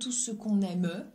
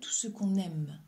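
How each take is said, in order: First: The final e of aime is pronounced. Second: The word ends on the m sound. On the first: The speaker calls it wrong. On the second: The speaker calls it right.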